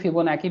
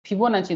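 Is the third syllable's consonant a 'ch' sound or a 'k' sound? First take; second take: k; ch. First: The third syllable starts with a 'k' sound. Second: The third syllable starts with a 'ch' sound. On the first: The speaker calls it wrong. "कोई कोई फिबोनाकी भी बोलते हैं" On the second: The speaker calls it right. "But this is फिबोनाची number"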